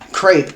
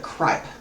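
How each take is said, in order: First: The vowel sounds like the one in 'crepe'. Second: The vowel sounds like the one in 'ripe'. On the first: The speaker calls it wrong. "was not right in the pronunciation" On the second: The speaker calls it right. "it's Samantha Cripe, technically"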